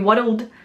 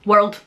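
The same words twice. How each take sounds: First: The word is said as two syllables. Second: The word is said as one syllable. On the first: "it would be world. So you're using two syllables" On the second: "instead of it being world"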